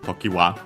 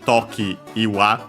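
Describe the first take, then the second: First: The 'i' before 'wa' is merged away. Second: The 'i' before 'wa' is fully pronounced. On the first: "then it became Tokiwa" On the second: "the I of Iwa was dropped"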